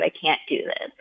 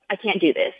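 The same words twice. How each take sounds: First: Much softer, falling away, "I can't do this" almost dropped; defeated, quiet. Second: Said in the usual way. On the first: Retold or imitated. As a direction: let "I can't do this" sink to a near-whisper of despair. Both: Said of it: "this is so deep and so hard".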